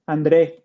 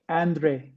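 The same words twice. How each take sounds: First: The stress is on the last syllable. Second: The stress is on the first syllable. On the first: This is how Spanish speakers say the name. "Mexicans it's Andre. Yeah, Andre with an accent at the end" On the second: This is how English speakers say the name. "all the Americans call me Andre"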